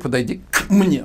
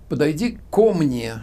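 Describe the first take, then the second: First: The k runs straight into mne without a vowel. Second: A vowel o follows the k before mne. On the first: The speaker calls it wrong. "я же не говорю «подойди к мне», вот «к м», оно не звучит" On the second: The speaker calls it right. "но я говорю «подойди ко мне»"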